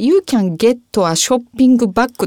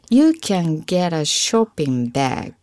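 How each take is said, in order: First: It is said with Japanese katakana-style pronunciation. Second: It is said with natural English pronunciation. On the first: The speaker calls it wrong. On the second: The speaker calls it right.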